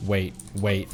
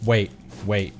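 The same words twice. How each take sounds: The two takes are said the same way.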